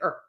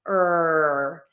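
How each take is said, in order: First: The sound is cut off too short. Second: The sound is held long and strong. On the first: The speaker calls it wrong. "you just make it a little too short" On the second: The speaker calls it right. "Long and strong, long and strong"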